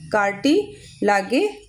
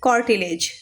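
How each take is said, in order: First: It is said as spelled, ending 'lah-gay'. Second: It is said normally, ending 'lij'. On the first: It is only a memory aid for the spelling. "मैंने याद करने के लिए कार्टी लागे आपको बता दिया है" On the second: This is the real pronunciation. "Pronunciation कॉर्टिलेज होता है"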